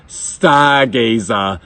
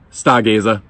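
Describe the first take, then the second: First: Very slow, stretched-out Boston accent; exaggerated Boston accent. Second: Said in the usual way. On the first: Shown as a demonstration. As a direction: savour each syllable in broad Boston. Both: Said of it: "the best Boston accent band name".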